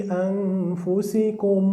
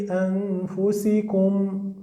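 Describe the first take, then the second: The two takes are said the same way.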